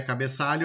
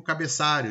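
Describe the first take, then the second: First: Said in the usual way. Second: "cabeçário" with -ário replacing -alho; "cabeçário" as the common slip for cabeçalho; substituted-sound mispronunciation. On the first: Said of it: "Correto seria cabeçalho". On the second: Shown as a demonstration. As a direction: say "cabeçário", r in place of lh. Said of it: "eu digo cabeçário, estou mudando".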